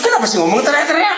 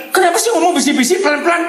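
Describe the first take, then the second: First: Keluarga halus. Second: High-pitched, fast mock complaint; keluarga ribut. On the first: Acted. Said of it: "Ini keluarga halus-halus". (menirukan keluhan keluarga halus, nada tinggi) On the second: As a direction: imitate a noisy family's shrill protest. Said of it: "Yang keluarga ribut selalu bilang". (menirukan protes keluarga ribut, nada tinggi)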